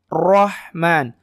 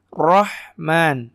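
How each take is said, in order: The two takes are said the same way.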